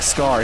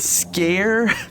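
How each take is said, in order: First: The vowel rhymes with 'car'. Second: The vowel rhymes with 'care'. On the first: The speaker calls it right. "he never once pronounces it correctly, like Scar" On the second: The speaker calls it wrong. "calls him the Scare"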